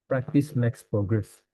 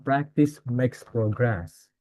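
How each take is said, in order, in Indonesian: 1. Itu digumamkan, dengan mulut hampir tidak terbuka. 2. Itu diucapkan dengan jelas, dengan mulut terbuka lebar. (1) "Nggak denger gitu, kurang jelas" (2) "Dibuka mulutnya kan"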